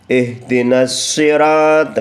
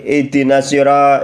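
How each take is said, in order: First: The s is held long and doubled. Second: The s is short and single. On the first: The speaker calls it right. "Harus dimasukkan huruf nun kepada huruf shad" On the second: The speaker calls it wrong. "nggak boleh"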